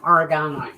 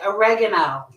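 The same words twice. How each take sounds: First: It is said in a non-American accent. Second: It is said in an American accent.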